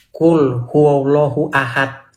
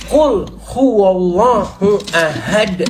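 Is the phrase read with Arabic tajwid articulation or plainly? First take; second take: plainly; tajwid. First: It is read plainly, without Arabic tajwid articulation. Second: It is read with careful Arabic tajwid articulation. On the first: The speaker calls it wrong. "Saya bacanya gini waktu itu. ... Salah kata dia" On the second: The speaker calls it right. "Bacanya harus gini"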